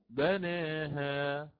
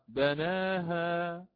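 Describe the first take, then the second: First: The long vowel after n is raised toward e. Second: The long vowel after n is fully open. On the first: "أو بالتقليل" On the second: "فأقرأ بالفتح"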